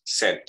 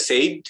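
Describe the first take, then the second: First: Said as "sed", falling; "said" rhyming with "bed"; straight short E. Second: Said as "sayd", rising; "said" rhyming with "made"; wrong glide. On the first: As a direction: say "said" directly, with no I. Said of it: "tapi langsung said". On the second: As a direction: say "said" with E sliding into I. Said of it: "tidak said". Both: Shown as a demonstration.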